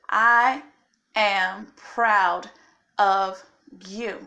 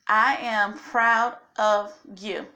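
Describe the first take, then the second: First: It is said louder, with more force and authority. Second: It is said in a plain, moderate voice. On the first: "With a little bit more authority, or as Kevin Hart would say it with your chest" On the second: "Say it again"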